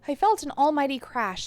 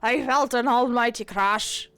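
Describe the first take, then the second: First: It is read in a plain, ordinary voice. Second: It is read in an Irish-sounding pirate voice.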